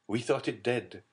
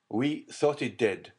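First: Said in the usual way. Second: "thought" pressed, slower and louder; insistent repeat. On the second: A narrator's reading. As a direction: hammer home "We thought it dead". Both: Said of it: "he repeated".

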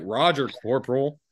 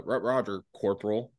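First: Pointed, mock-obedient reply; cheeky imitation of a drunk acknowledging orders; disrespectful drunk. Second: Put-on stumbling, hesitant drunk reply; understated, halting drunken answer; drunk acknowledgement. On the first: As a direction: answer the superior with drunken insolence. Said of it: "I'm being disrespectful as fuck". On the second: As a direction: imitate a drunk fumbling his acknowledgement. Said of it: "I'm, like, drunk as shit".

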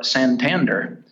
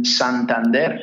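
First: Santander in an American gringo accent; anglicized Santander, ending in "der". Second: Santander with a Spanish accent; Spanish-style Santander, ending in a stressed "dair"; Spanish pronunciation. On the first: Gringo version after the Spanish one. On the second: Spanish versus gringo pronunciation shown. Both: Shown as a demonstration.

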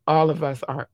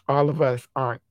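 Both takes have the same delivery.

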